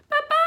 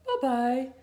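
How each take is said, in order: First: It is said in a high, squeaky voice. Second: It is said in a middle-sized voice.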